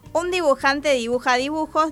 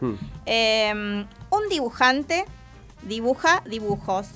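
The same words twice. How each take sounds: First: It is said quickly with rhythm. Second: It is said slowly and carefully. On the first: "ahora vamos a meter el ritmo" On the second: "Lo voy a decir despacito"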